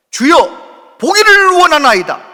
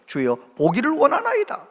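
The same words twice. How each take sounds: First: Louder, higher cry of "보기를 원하나이다"; loud desperate cry. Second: Said in the usual way. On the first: Retold or imitated. Blind Bartimaeus crying out to Jesus, loud desperate plea. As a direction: shout the plea with everything. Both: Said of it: "정확하게 자기의 기도를 딱 하는 거예요".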